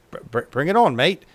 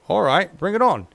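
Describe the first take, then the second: First: Put-on worst Aussie accent, louder; hammed-up Aussie accent on "bring it on, mate". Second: Said in the usual way. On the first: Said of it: "In, in their worst Aussie accent possible". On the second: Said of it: "In their worst Aussie accent possible".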